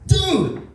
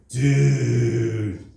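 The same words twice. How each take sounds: First: It is exclaimed in loud astonishment. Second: It is drawn out very slowly. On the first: That is shockingly big. "your dick is way too big" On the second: You really messed up. "if you say it really slow"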